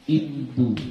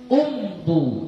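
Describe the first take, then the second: First: The word begins with an "i" vowel. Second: The word begins with an "u" vowel. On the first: The speaker calls it right. "dimulai dengan kasrah" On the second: The speaker calls it wrong. "Tapi ini salah"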